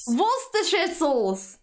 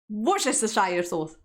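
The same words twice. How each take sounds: First: The 'shire' part is reduced almost to nothing. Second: Every written syllable, including 'shire', is pronounced. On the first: "instead, they say" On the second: "so it is written"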